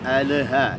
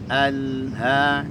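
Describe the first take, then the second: First: The l sound bounces with a small echo. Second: The l sound flows smoothly into the next sound. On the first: The speaker calls it wrong. "jangan sampai dipantulkan" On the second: The speaker calls it right. "mengalir saja lamnya"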